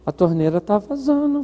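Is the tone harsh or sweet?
sweet. It is said in a sweet, affectionate tone. The listener feels valued and agrees to help. The speaker calls it right. "o certo é fazer assim"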